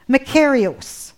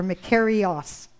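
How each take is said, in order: First: "makarios" ending in a long "ohs"; "makarios" with the last syllable like "gross"; first pronunciation. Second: "makarios" ending in an open "ahs"; alternative pronunciation. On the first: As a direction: say "makarios" as mah-KAIR-ee-ohs. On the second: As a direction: say "makarios" as mah-KAIR-ee-ahs. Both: Shown as a demonstration. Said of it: "not sure how to pronounce it".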